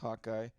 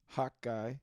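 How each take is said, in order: First: The word is said quickly and loosely. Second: Each syllable of the word is said distinctly. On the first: The speaker calls it wrong. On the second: The speaker calls it right.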